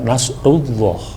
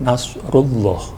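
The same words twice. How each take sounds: Both takes have the same delivery.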